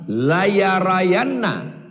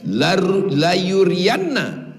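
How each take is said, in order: First: The vowels after y and r are both a. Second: The vowels after y and r are u and i. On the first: "dua-duanya dibaca fathah" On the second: "huruf ya-nya dhammah, wa kasri ra"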